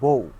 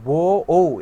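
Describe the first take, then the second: First: The two vowels glide together into one syllable. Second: The two vowels are said as separate parts. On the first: The speaker calls it right. "একেবারে বলি বউ" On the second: The speaker calls it wrong. "এভাবে না বলে"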